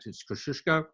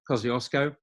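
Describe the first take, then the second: First: The name is said the original Polish way. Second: The name is said the usual Australian way.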